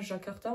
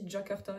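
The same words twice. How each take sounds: First: It begins with a soft zh sound. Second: It begins with a dj sound. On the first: The speaker calls it wrong. "on le dit pas Jakarta" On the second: The speaker calls it right. "on le dit Jakarta"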